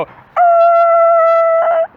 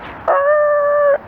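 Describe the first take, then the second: First: Very high, loud mock brake screech like a seal; a piercing falsetto squeal for tires braking; squealing brake noise. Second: A very high, strained screech for the brakes; squealing brake noise. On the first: Driver imitating his own brakes for the cow, piercing squeal. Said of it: "sounds more like a seal in heat". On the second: Retold or imitated. Retelling the near crash, a very high mock brake screech. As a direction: squeal it out like tires locking up. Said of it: "we'll pretend that this is me braking".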